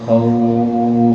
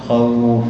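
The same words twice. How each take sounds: First: The vowel is lengthened for six counts. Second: The vowel is lengthened for two counts. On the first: "أو ستة" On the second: "تقف إما حركتين"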